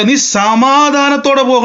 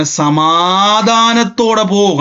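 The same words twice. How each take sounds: First: Higher, slow proclaiming blessing; lifted blessing. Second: Drawn-out, gentle priestly blessing; slow blessing. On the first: Eli sends Hannah away, high and slow. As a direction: raise the voice and stretch it out. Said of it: "ഏലി പറയുക". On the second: Priest Eli slowly blessing Hannah, drawn out. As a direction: stretch each syllable slowly, like a priest blessing. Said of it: "ഏലിയുടെ വാക്കുകൊണ്ടാണ്". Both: Retold or imitated.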